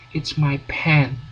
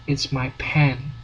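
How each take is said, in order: No difference in how they are said.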